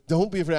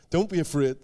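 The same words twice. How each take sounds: First: The same words again, firmer, stress on Don't; firmer repeat. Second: Gentle, with a laugh. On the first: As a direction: press the word Don't a bit harder. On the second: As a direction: say it kindly through a little laugh. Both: Retold or imitated. Jesus voiced, comforting.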